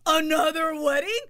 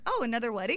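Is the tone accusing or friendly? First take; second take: accusing; friendly. First: It sounds accusing and judgmental. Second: It sounds light and friendly.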